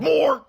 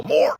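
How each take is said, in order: First: High, loud shout of the word "More!"; "More!" yelled high and loud like a waking beast; hungry roar. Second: Loud "More!" at normal pitch, in a lightly voiced Ben Solo; a hint of Ben Solo yelling "More!" loud. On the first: Retold or imitated. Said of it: "This man woke up and said". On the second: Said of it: "Like Ben Solo".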